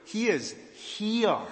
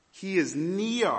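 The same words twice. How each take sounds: First: Slow, high, hushed weight on "He is here"; "He is here" stressed word by word, "He" highest; emphatic here. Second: Slow, high, stress on "near"; "He is near" with "near" drawn out; emphatic near. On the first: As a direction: land "here" like a revelation, very slowly. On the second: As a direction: lean on the word "near", slowly. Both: Shown as a demonstration. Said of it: "Let me put it more clearly".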